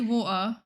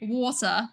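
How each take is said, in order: First: The T is replaced by a glottal stop. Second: The T is sounded, Australian style. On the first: "I have a tendency to like do the the glottal stop on the T's" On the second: "Australians do kind of say like water"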